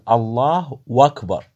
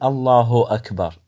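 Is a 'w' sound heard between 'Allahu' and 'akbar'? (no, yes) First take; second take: yes; no. First: The u vowel becomes a distinct w sound. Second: The short u vowel flows straight into akbar. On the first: Akbar becomes joined by 'and' instead of being the predicate. The speaker calls it wrong. "يقول الله وأكبر" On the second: Akbar is the predicate describing God. The speaker calls it right. "فما يقول الله أكبر"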